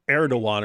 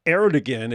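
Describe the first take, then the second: First: Erdogan with a silent g, like Air-do-wan; Turkish-style pronunciation. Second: Erdogan said as spelled, with a sounded g; spelled pronunciation. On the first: Host attempting the actual Turkish name, Erdogan with silent g. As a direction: glide over the g in Erdogan. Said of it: "is actually, like". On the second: Host mocking the spelling of the Turkish name, Erdogan with hard g. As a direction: read Erdogan letter by letter, hard g. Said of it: "they'll do weird things like". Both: Shown as a demonstration.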